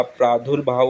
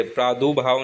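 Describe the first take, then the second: First: प्रादुर्भाव as "praa-dur-bhaav"; correct middle r. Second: प्रादुर्भाव misspoken as "praa-du-bhaav"; wrong missing r. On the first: Teacher correcting it, प्रादुर्भाव with "dur". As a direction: sound the r before bh in प्रादुर्भाव. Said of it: "ऊपर र की मात्रा आती है". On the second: Teacher showing the error, प्रादुर्भाव without middle "r". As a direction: drop the r in प्रादुर्भाव. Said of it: "प्रादुर्भाव नहीं होता". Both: Shown as a demonstration.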